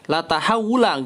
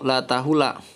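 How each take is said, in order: First: The verb is said longer, as 'tahawula'. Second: The verb is said short, as 'tahula'. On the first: The speaker calls it right. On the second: The speaker calls it wrong. "salah harokah"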